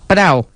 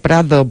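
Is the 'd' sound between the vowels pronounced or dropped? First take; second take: dropped; pronounced. First: The d is dropped, giving a short prau. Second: The word is said in full, with the d. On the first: It is the everyday local word for a meadow. The speaker calls it right. "el prau de toda la vida" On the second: It sounds like the name of the museum. The speaker calls it wrong. "Si es que cuesta hasta decirlo"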